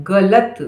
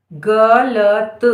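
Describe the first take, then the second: First: Said in the usual way. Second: Very slow dictation; गलत drawn out as ग, ल, त; syllable by syllable. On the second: Shown as a demonstration. Dictating word sound by sound.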